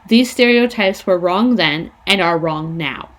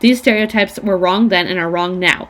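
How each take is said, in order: First: It is read more slowly. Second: It is read quickly.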